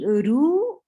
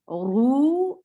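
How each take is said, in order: First: The r sound is light and thin. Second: The r sound is heavy and full. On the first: The speaker calls it wrong. "Saying ru is light" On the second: The speaker calls it right. "Ru is heavy"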